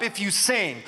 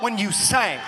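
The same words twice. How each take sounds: First: Said in the usual way. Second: "sing" said as "sang" with a wide vowel; soulful "sang". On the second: Shown as a demonstration. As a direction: hit "sing" as an open, emphatic "sang". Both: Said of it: "difference between singing and singing".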